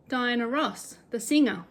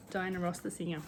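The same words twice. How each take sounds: First: Said in the usual way. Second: Softly repeated, deadpan; quiet deadpan echo. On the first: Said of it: "He said". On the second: Shown as a demonstration. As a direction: echo it under your breath. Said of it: "meet Diana".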